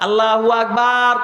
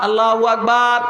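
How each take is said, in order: Both takes have the same delivery.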